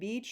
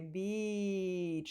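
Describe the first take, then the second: First: The vowel is said quickly and short. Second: The vowel is held out long. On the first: "You can say it quickly, like" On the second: "or you can say"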